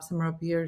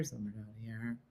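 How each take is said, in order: First: Placed up top. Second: Low, very soft voice dropped down deep; placed down low. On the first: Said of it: "like how certain languages are like". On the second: Showing viewers where languages sit, voice dropped low. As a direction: sink the voice right down. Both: Shown as a demonstration.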